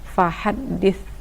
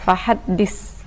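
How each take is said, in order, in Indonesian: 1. Kata ini berakhir dengan bunyi th. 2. Kata ini berakhir dengan bunyi s. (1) "seharusnya huruf tha" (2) "ada yang membaca dengan sin"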